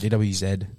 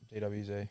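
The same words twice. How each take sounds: First: The last letter is said as zed. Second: The last letter is said as zee. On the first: The speaker calls it right. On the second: The speaker calls it wrong.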